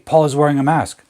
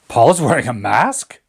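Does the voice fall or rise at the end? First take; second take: fall; rise. First: The voice falls at the end. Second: The voice rises at the end. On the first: A plain statement of fact. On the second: Checking or expressing surprise at what was said.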